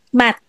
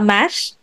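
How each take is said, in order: First: The word ends with a t sound. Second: The word ends with an sh sound. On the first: The speaker calls it right. "but mat" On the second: The speaker calls it wrong. "hindi siya mash"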